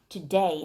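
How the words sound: The pitch falls on the word. The speaker calls it right. "today 하면서 음을 내려준다"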